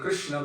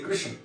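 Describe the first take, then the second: First: The name ends with a full final vowel. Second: The final vowel is dropped and moved inside. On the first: "Instead of saying Krishna" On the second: "they'll say Krishan. They actually truncate the vowel at the end and inflect it back inside"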